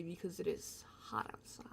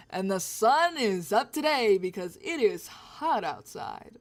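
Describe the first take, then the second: First: Soft unvoiced whisper. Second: Slow, louder newsreader delivery; weather reporter voice. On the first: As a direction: whisper the weather line. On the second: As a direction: announce it like a TV weatherman. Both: Shown as a demonstration. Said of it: "I sound like a weather reporter".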